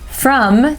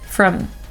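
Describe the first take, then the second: First: The word is said with a full vowel. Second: The word is said with a reduced vowel.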